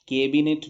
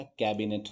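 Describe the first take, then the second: First: कैबिनेट as "kay-binet"; closed e in कैबिनेट, louder; wrong "के" vowel. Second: कैबिनेट as English "cabinet"; कैबिनेट with the vowel of cat; correct "कै" vowel. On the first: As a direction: say कैबिनेट as केबिनेट. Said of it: "कैबिनेट भी नहीं होता". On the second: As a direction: open "ae" in कैबिनेट. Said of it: "कैबिनेट होता है". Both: Shown as a demonstration.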